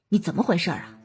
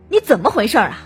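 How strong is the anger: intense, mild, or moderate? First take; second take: mild; moderate. First: The voice shows only slight annoyance. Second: The voice sounds clearly angry and sharper. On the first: The speaker is a little dissatisfied. "不满" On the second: The speaker is angry. "生气"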